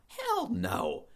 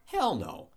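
First: Emphatic hell no. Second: Said in the usual way. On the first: Real, not acted. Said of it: "repeated, much higher". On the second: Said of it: "repeated emphatic denial".

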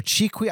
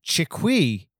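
First: Chiqui said "CHEE-kwee", first syllable high; alternative pronunciation. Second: Chiqui said "shi-KWEE", end raised; alternative pronunciation. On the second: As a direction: say Chiqui with stress on the last syllable. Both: Shown as a demonstration. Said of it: "I don't know how to say it".

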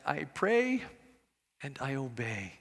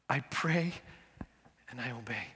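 First: Lightly imitated Korean accent, rising then dropping low and soft. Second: Put-on soft, low repeat in a mild Korean accent. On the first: Pastor answering the secret of his success, light Korean accent. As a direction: mimic an elderly Korean pastor's accent, gently. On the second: Preacher repeats the pastor's answer, soft Korean accent. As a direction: echo the pastor's Korean accent quietly, savoring it. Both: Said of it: "his Korean accent".

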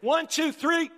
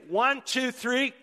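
First: Really loud countdown. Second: Rally the crowd, punching each number; loud countdown. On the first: Pastor urging the congregation to clap really loud, shouting the count. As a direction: shout the count much higher and louder. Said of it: "let's do it really loud". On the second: Pastor counting the congregation into a clap, loud. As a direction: count it off louder and higher. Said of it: "can everybody put their hands together?". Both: Real, not acted.

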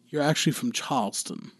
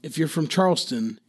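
First: "Charleston" with the R dropped, "Chahlston"; Charleston pronunciation. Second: Said in the usual way. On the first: Shown as a demonstration. Teaching how locals really say it, R-less "Charleston". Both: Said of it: "main thing is for a Charleston accent".

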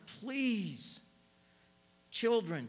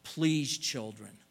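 First: Please lifted high and drawn out, falling; please pitched high then sinking, with children trailing after; emphasis on please. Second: A loud, earnest plea from a loving father; a father's heartfelt request; pleading parent. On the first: Shown as a demonstration. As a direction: stretch the word please as a parent's plea. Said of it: "and I emphasize the word". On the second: Retold or imitated. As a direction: beg the children to listen, loudly. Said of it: "Can you hear the Lord saying".

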